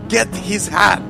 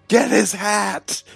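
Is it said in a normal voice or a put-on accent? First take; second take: put-on accent; normal. First: It is said in a put-on character accent. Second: It is said in a plain, normal voice.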